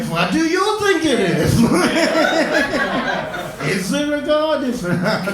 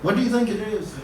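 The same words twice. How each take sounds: First: Mocking echo. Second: Said in the usual way. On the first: Doctor echoing the patient's question back, mock smug. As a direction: toss the question straight back, smugly. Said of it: "They're just like". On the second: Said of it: "Just like".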